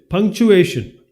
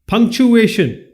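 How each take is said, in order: Both takes have the same delivery.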